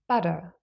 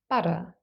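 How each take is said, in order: First: The middle T is a quick, light tap. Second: The middle T is a quick, light tap.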